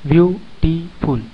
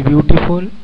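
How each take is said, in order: First: ब्यूटीफुल slowly broken into ब्यू, टी, फुल; three-syllable split. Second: Said in the usual way. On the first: Shown as a demonstration. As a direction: pause between each syllable of ब्यूटीफुल. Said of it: "यानी ये तीन खंडों में विभाजित है". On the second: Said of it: "तीन syllable वाले शब्द कौन से हैं".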